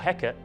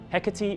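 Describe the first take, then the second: First: The name is said the old Shakespearean way. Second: The name is said the usual modern way.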